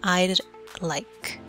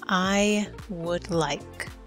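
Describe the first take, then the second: First: The first two words merge into one syllable. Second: Each word is said fully and separately.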